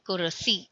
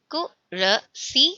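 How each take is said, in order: First: Said in the usual way. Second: कुरसी said very slowly, syllables drawn out; slow model word. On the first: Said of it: "repeat at normal pace". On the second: Shown as a demonstration. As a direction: stretch कुरसी slowly for the class to copy. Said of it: "model word then repeat". (कुरसी को धीरे-धीरे खींचकर)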